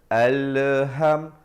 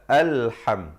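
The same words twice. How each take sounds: First: The opening syllable is drawn out slowly. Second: The opening syllable is said short and quick. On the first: The speaker calls it wrong. "Jangan baca alham, alham, le tu tak ada" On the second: The speaker calls it right. "Mestilah alham"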